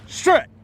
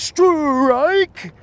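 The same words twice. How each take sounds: First: The word is said plainly without exaggeration. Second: The word is called out big and exaggerated. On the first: "Or do you just go" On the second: "do you do it like all exaggerated?"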